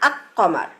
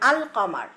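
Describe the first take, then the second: First: The l merges into a doubled q sound. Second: The l is pronounced clearly before the q. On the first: The speaker calls it wrong. "আমরা কিন্তু বলি না আক কমার" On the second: The speaker calls it right. "লামটা উচ্চারণ করতেছে"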